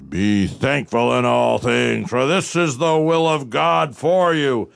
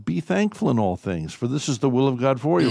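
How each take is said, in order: First: It is said in a harsh, angry tone. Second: It is said in a soft, gentle tone.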